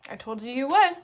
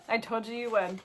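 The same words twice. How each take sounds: First: Loud, pointed gloating; teasing I-told-you-so. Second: Said in the usual way. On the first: Real, not acted. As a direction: rub it in to the viewers, loudly. Teasing viewers about missing Impy.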